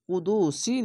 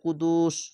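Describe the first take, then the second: First: The word ends with a final 'i' vowel. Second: The word ends on the final 's' consonant. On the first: The speaker calls it wrong. "কুদুসি না বলে" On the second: The speaker calls it right. "কুদুস বলতে হবে"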